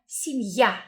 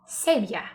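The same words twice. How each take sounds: First: The stress is on the last syllable. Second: The stress is on the first syllable. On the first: The speaker calls it right. "Key vowel letter here with emphasis is ya" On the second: The speaker calls it wrong. "But don't say семья"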